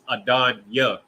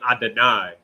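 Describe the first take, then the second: First: The word ends with a 'yah' sound. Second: The word ends with an 'eye' sound. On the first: The speaker calls it right. "it's Adon Yah" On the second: The speaker calls it wrong. "but they say Adonai"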